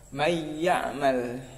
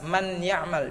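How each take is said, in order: First: The n sound merges directly into the y. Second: The n sound is pronounced clearly before the y. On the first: The speaker calls it right. "langsung masuk ke huruf ya" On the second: The speaker calls it wrong. "nunnya itu jangan dibaca jelas, ... jangan"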